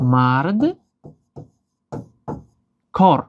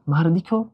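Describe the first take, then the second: First: No vowel comes between the two parts. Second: An added i vowel joins the two parts. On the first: "дар ин шакл гуфтан қин аст" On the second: "садоноки и илова мешавад"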